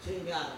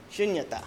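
First: Shunyata said the Western way, short u and short final a; Western mispronunciation. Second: Shunyata with a long U and a long I at the end; correct pronunciation. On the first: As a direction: flatten the vowels in shunyata like a Westerner. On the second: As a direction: stretch the u and the final vowel in Shunyata. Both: Shown as a demonstration. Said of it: "it's long U and long I at the end".

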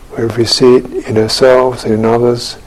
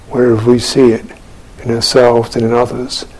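Both takes have the same delivery.

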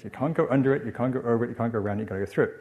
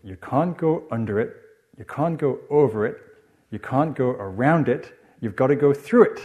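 First: Quick Geordie run-through of a rhyme; Geordie accent. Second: Loud, higher Geordie nursery chant; measured, emphatic Geordie rhyme; Geordie accent. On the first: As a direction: rattle off the rhyme lightly in Geordie. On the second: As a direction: chant it proudly like a small Geordie child. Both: Retold or imitated. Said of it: "you'd say it in a Geordie accent".

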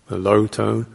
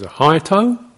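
First: "low tone" held low and level; low tone demo. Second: "high tone" pitched up and louder; high tone demo. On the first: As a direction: keep "a low tone" down low. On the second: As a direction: lift "a high tone" up high. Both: Shown as a demonstration. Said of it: "very clear system of tones".

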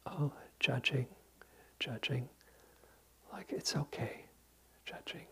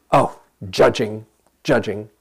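First: Tender, soft whisper; kindest voice. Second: Harsh noting. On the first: Teacher guiding students to whisper to their judging mind, tenderly. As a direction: whisper it kindly, like soothing a child. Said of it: "silently say in the kindest voice". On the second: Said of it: "it's easy to get into". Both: Shown as a demonstration.

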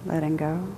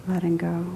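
The two takes are said the same way.

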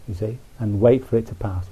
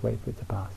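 First: Said in the usual way. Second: Soft echo. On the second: Shown as a demonstration. Soft repeated echo of advice.

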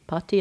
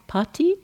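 First: Said in the usual way. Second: Pati tried high with a questioning rise; tentative Latin try. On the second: Shown as a demonstration. Teacher unsure of the Latin root, trying pati with a rising lilt. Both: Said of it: "I'm not a Latin speaker".

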